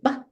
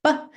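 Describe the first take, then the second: Both takes have the same delivery.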